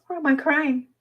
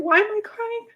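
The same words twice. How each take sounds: First: High, tear-choked voice falling at the end; crying openly while asking; tearful. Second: Sudden tears. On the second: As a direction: voice jumps high as tears well up. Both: Real, not acted.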